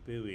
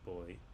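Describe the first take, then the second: First: The word is said the way some Americans say it. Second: The word is said to rhyme with 'toy'. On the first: The speaker calls it wrong. "Some Americans say buoy" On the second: The speaker calls it right. "you should probably say boy"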